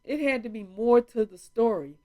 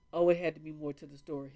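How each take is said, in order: First: Loud, higher mocking echo of the doctor's words; mocking repeat. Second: Quick, offhand quote of the doctor; quoted doctor, fast. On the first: Vlogger mocking the doctor's excuse to her viewers, loud and scornful. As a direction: throw his words back at him in scorn. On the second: Retold or imitated. Vlogger quoting the doctor's dismissal, quick and offhand. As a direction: rattle off his brush-off lightly. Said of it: "he was like".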